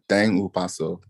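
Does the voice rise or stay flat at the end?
flat. The voice stays flat at the end.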